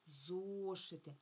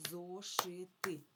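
First: "Зошити" slowly as one word, о stretched; long first syllable. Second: "Зошити" slowly in three separate, equally weighted syllables; split into syllables. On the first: Teacher giving the word before dividing it, "Зошити" whole with long о. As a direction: hold the о of "Зошити", then finish the word. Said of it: "Давайте поділимо слово на склади". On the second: Teacher counting syllables for children, "Зошити" syllable by syllable. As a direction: break "Зошити" up as зо, ши, ти. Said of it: "поділимо слово на склади". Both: Shown as a demonstration.

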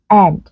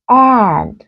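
First: AND with a plain short e, like Vietnamese e; âm e bình thường. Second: AND drawn out with a tense, nasalized a; căng, hơi mũi. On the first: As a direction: jaw slightly dropped, relaxed e in AND. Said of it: "từ thứ nhất thì mình đọc rất là bình thường". (AND đọc gần giống âm e tiếng Việt) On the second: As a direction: stretch AND, vowel half a half e. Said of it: "đấy là sự khác biệt". (AND âm a căng, nửa a nửa e) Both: Shown as a demonstration.

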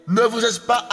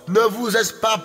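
Both takes have the same delivery.

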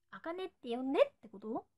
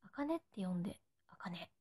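First: Said in the usual way. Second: Whispered softly, no voice at all; soft unvoiced whisper of あかねって呼んで; breathy whisper. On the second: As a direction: breathe it like a secret to a fan.

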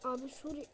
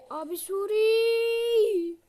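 First: Said in the usual way. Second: Higher, louder, very slow drawn-out call; long calling out. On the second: Real, not acted. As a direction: call out long across the distance. Calling character repeatedly.

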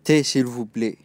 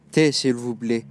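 No difference in how they are said.

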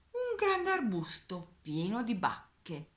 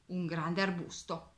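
First: Grande stretched and stressed, slow and wondering; drawing out grande to amaze the child; slow emphatic storytelling. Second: Said in the usual way. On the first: A narrator's reading. Narrator to child listeners, slow stress on grande.

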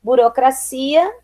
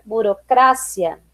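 First: Said in the usual way. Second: "burocrácia" slowly, stressed on CRA; Spanish stress. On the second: Shown as a demonstration. Teacher reading the list, "burocrácia" with Spanish stress on CRA. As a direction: hit CRA in "burocrácia", short "cia". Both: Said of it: "diferença entre as palavras heterotônicas".

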